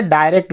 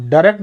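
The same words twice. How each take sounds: First: डायरेक्ट with a short "ə", "də-rekt"; short "a" sound. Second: डायरेक्ट with the first vowel as "ai", "dai-rekt"; "ai" sound. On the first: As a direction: clip the first vowel of डायरेक्ट to a short "ə". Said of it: "यहाँ पे अ निकल रही". (डायरेक्ट, छोटी "अ" ध्वनि के साथ) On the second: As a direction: open डायरेक्ट with a full "ai". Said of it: "यहाँ पे आय ध्वनि निकल रही". (डायरेक्ट, "आय" ध्वनि के साथ) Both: Shown as a demonstration.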